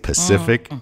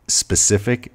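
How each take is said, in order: First: The word begins with a p sound. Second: The word begins with an s sound. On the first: The speaker calls it wrong. "they say" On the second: The speaker calls it right. "instead of saying specific"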